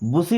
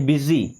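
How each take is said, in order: First: The first vowel sounds like 'oo', with an s. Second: The first vowel sounds like 'i', with a z. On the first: The speaker calls it wrong. "बुसी नहीं पढ़ते" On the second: The speaker calls it right.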